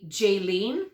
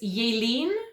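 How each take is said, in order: First: The name is said the usual Canadian way. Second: The name is said the way its owner says it. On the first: "that's how we would pronounce that name in Canada" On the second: "I apologize for saying your name wrong"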